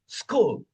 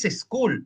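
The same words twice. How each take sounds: First: The word starts directly with the s sound. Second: An extra e vowel comes before the s. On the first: The speaker calls it right. "es school" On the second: The speaker calls it wrong. "School no es school"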